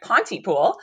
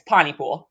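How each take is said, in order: First: The T in the middle is clearly pronounced. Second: The T in the middle is dropped. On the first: The speaker is not from the town. The speaker calls it wrong. "I pronounce the T. So I had been pronouncing it Pontypool" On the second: This is how the locals say it. The speaker calls it right. "but apparently drop it. It's Pontypool"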